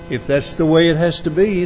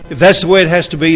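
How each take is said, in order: First: It sounds resigned and defeated. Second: It sounds calmly accepting and submissive. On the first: The speaker has given up. "It could be that it was a tone of defeat" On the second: Nothing else would work, so it is accepted. "could have been one of submission"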